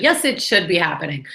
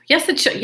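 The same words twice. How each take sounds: First: Said in the usual way. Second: "Yes" hit high and hard; firm correction. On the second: Shown as a demonstration. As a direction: snap back "Yes" with a sharp high stress on Yes. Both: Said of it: "This shouldn't be happening".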